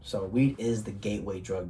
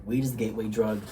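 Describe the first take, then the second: First: Said in the usual way. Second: "Weed" punched louder at the start; emphatic repeat. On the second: Shown as a demonstration. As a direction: hit "Weed" hard, whole line louder. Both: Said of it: "That's what we gotta know".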